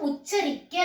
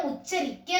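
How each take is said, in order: No difference in how they are said.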